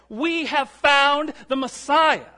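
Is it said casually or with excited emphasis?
excited emphasis. It is proclaimed with excited emphasis.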